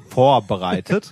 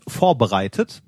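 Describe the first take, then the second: First: Vorbereitet drawn out slowly, each syllable weighted; slow, emphatic Vorbereitet with a rising end; stressed slow repeat. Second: Said in the usual way. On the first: Shown as a demonstration.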